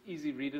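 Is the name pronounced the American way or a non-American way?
American. The name is said with American pronunciation. The name makes a pun on the word easy. The speaker calls it right. "you pronounce this the American way, otherwise the pun doesn't work"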